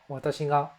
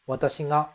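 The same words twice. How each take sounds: Both takes have the same delivery.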